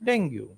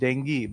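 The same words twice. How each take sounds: First: The word is said with the common Indian pronunciation. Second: The word is said with its standard pronunciation. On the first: The speaker calls it wrong. "but we say dengue because we understand it that way" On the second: The speaker calls it right. "The word is dengue"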